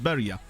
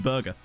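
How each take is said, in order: First: The g is soft, like a y sound. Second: The g is hard, like in go. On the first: "that could be the Swedish soft G" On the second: "It might just be Berger"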